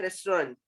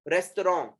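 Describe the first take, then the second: First: रेस्टोरेंट as "rest-ran", anglicised; everyday restaurant. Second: रेस्टोरेंट as "res-to-ron", no T; original French pronunciation. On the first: Teacher contrasting with the original word, रेस्टोरेंट as "rest-rant". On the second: Teacher modelling the original word, रेस्टोरेंट as "res-to-ron". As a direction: end रेस्टोरेंट on nasal "ron". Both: Shown as a demonstration. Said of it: "original word क्या है?".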